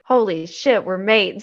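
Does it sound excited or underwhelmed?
excited. It is said in an excited, amazed way.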